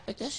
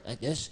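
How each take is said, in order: First: Small, soft, high puppet voice; higher puppet voice. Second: Lower puppet voice. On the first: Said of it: "a little higher". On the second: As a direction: drop the puppet voice down low. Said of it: "A little lower". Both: Shown as a demonstration.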